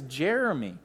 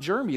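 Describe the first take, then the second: First: A middle vowel sound is fully said. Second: A middle vowel sound is left out. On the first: The speaker calls it right. "It's Jeremy. Get it right" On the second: The speaker calls it wrong. "it's not Jeremy. There's another E in there you're missing"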